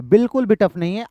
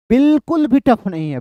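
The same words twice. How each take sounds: First: Said in the usual way. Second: "बिल्कुल" stretched out and pitched higher; emphatic reassurance. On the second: Real, not acted. Teacher reassures a struggling student, "बिल्कुल" strongly stressed. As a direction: lean hard on "बिल्कुल", drawing out its first syllable.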